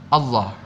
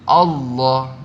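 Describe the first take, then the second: First: The L sound is light and thin. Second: The L sound is heavy and thick. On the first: The speaker calls it wrong. "bukan Allah" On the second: The speaker calls it right. "tebal, tebal ... tapi Allah"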